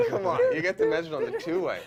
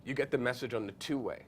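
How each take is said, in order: First: Very high, loud, laughing exclamation; excited disbelief. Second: Said in the usual way. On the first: Real, not acted. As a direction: relive the thrill, half-laughing. Excited repeat after laughing.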